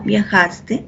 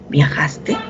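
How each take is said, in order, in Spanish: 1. El tono baja al final de la palabra. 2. El tono sube al final de la palabra. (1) "yo afirmo viajaste, el tono es un tono descendente" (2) "si yo hago la pregunta, ¿viajaste? El tono es ascendente"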